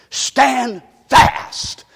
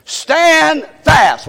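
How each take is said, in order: First: Said in the usual way. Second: Louder, higher group call. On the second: Shown as a demonstration. Preacher leading the church in the phrase, called out. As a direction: lead the congregation in a shout. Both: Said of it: "Let's say that together".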